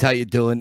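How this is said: It is said in a neutral Rocky impression.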